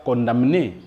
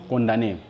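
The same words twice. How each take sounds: First: "condamné" with the M pronounced before N; wrongly sounded M. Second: "condamné" with no M sound; silent M. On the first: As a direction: say "condamné" as "con-dam-né". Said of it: "on ne dit pas condamné". (« condamné » en prononçant le m) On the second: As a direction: say "condamné" as "con-da-né". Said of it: "mais nous disons condamné". (« condamné » avec le m muet) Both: Shown as a demonstration.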